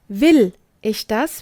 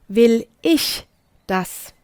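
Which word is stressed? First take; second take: Will; ich. First: The stress is on the word Will. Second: The stress is on the word ich.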